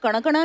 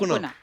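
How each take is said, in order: First: The name is said with a South Indian pronunciation. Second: The name is said with its original pronunciation. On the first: This is how people from the South say it. "South में तो कणकणा नहीं भी बोले हैं" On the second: This is the name's exact pronunciation. "Exactly है"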